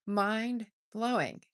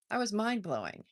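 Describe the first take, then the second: First: Mind-blowing drawn out slowly, each syllable stretched; slow savoring repeat. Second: Said in the usual way. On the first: Shown as a demonstration. Host echoing her own phrase to live viewers, slowly savored. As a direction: let Mind-blowing linger, slowed right down.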